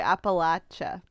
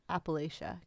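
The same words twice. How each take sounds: First: It is said the way Appalachian locals say it. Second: It is said in an Indiana accent.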